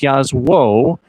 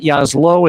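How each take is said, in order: First: The middle consonant is a W sound. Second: The middle consonant is an L sound. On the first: The speaker calls it right. "it's Yazwo" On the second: The speaker calls it wrong. "It's not Yaslo"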